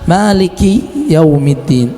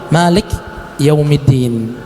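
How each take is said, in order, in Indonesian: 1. Vokal setelah k dibaca cepat dan pendek. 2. Tidak terdengar vokal setelah k. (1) "Tapi diper, dipercepat" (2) "jangan sampai kita mensukunkannya"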